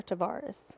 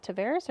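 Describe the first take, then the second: First: Tavares with an open "ah" in the middle; second pronunciation variant. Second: Tavares with an "air" vowel in the middle; first pronunciation variant. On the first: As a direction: say Tavares as tuh-VAR-us. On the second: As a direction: say Tavares as tuh-VAIR-us. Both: Shown as a demonstration. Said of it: "do you say, is it".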